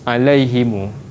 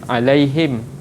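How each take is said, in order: First: The final m is joined to an added u vowel. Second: The final m is silent, with no vowel after. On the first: "Untuk silah" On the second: "iskan maksudnya kita matikan"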